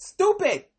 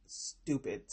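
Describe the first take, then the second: First: Stupid shouted high and loud; exclaimed. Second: Unvoiced, soft Stupid; muttered. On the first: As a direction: burst out with Stupid. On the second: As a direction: whisper Stupid to yourself. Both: Real, not acted.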